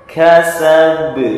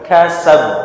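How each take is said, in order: First: The final b is released with a bounce. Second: The final b is closed without a bounce. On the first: The speaker calls it right. "Maka membacanya dipantulkan" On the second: The speaker calls it wrong. "tidak boleh dibaca kasab"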